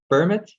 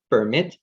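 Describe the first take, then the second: First: PERmit, first syllable punched higher and louder; "permit" with a strong PER and light mit; stress on first syllable. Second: PerMIT, weight on the final syllable; slow "permit", leaning on the mit, like the verb; "permit" with light per and strong MIT; stress on second syllable. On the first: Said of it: "the stress is on the first syllable". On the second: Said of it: "the stress is on the second syllable". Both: Shown as a demonstration.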